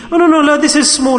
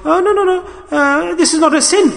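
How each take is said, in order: First: Raised voice, brushing off the sin; dismissive excuse. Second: Much higher, mocking the one who shrugs off sin; mocking dismissal. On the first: Retold or imitated. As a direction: wave it away as nothing, voice pitched up. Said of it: "like I said to you". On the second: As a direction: squeak out the excuse in mock disbelief. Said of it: "We say it's not even a sin".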